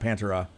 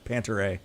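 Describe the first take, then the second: First: It ends with a smooth '-era' syllable. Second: It is 'Panther' followed by a separate letter A. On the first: This is the band's actual name. "not Pantera" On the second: This is how some people thought the name was said. "it's Panther and then another big letter"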